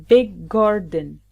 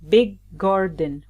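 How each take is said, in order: No difference in how they are said.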